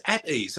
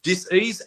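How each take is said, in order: First: "at ease" softer, falling; soft settled answer. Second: "Dis-ease" split, rising at the end; split word. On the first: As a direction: let "at ease" settle quietly down. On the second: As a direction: break "Dis-ease" into two, lift it. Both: Shown as a demonstration. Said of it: "What was that?".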